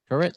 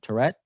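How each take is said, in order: First: The name sounds like the word turret. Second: The name sounds like the word Tourette. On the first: The speaker calls it right. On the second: The speaker calls it wrong. "Not like Tourette syndrome"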